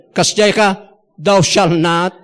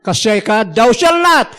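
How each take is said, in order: First: Said in the usual way. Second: Shouted commandment. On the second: Retold or imitated. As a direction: bellow the rule like a scolding preacher. Mimicking legalistic preachers.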